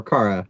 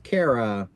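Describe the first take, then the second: First: "Kara" starting like the word car; "Kara" with an AH vowel. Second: "Kara" rhyming with Sarah; "Kara" with an AIR vowel. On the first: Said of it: "however you say that". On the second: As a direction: say "Kara" as KAIR-uh. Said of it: "or Kara, however you say that". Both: Shown as a demonstration.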